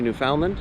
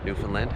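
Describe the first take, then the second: First: The name is pronounced the way outsiders say it. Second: The name is pronounced the way locals say it.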